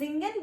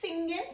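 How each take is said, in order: First: The word begins with a buzzing Z sound. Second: The word begins with a sharp S sound. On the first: The speaker calls it right. "S का sound will become Z" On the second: The speaker calls it wrong. "don't say it singen"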